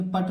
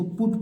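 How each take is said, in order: First: "पट" with uh instead of oo; wrong uh vowel. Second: "पुट" with a short oo, not uh; short oo vowel. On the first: Teacher showing what not to read, uh-vowel "पट". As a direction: misread it as "पट", bare a sound. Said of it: "पट नहीं पढ़ेंगे". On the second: Teacher giving the correct reading, short-oo "पुट". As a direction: read "पुट" with a small u sound. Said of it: "इसको पुट पढ़ेंगे". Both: Shown as a demonstration.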